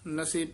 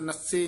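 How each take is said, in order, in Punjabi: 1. ਇਹ ਸ਼ਬਦ ਨਰਮੀ ਨਾਲ ਕਿਹਾ ਜਾਂਦਾ ਹੈ। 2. ਇਹ ਸ਼ਬਦ ਜ਼ੋਰ ਨਾਲ ਕਿਹਾ ਜਾਂਦਾ ਹੈ। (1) "ਨਸੇ ਪੂਲਾ ਹੀ ਉਚਾਰਨ ਕਰਨਾ ਹੈ" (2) "ਨਸੇ ਨਹੀਂ ਕਹਿਣਾ"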